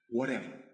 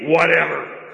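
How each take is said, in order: First: It is said humbly, as a yielding surrender. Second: It is said dismissively, with annoyance.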